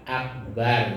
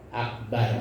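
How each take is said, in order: The two takes are said the same way.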